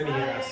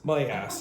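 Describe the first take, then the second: First: The first word is said like 'me'. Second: The first word is said with a full 'my' vowel.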